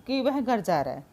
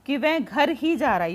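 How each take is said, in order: First: Said in the usual way. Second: Teacher stressing ही for the class. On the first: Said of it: "तो simple सा है". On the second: Shown as a demonstration. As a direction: lean on ही as if nowhere else. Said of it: "stress दे दिया उस पे ही लगा के".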